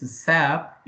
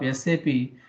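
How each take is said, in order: First: It is said as one single word. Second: It is spelled out letter by letter. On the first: The speaker calls it wrong. "instead of" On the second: The speaker calls it right. "Call it always as S A P"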